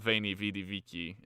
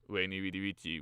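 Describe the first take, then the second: First: Each word starts with a V sound. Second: Each word starts with a non-V sound. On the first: This follows the church way of reading Latin. "all of the V's are are V's" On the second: This follows how Latin was spoken in ancient times. "more historically accurate"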